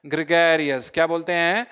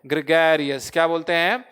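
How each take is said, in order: Both takes have the same delivery.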